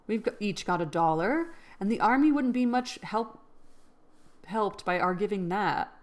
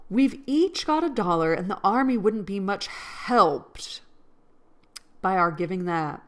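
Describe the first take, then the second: First: Said in the usual way. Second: Mock Mid-Atlantic accent. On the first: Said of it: "It's already, like, a different cadence and a different tone". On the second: Shown as a demonstration. Rereading Meg's line to viewers, hammed-up Mid-Atlantic accent. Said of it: "North Atlantic accent where it's, like, kind of British".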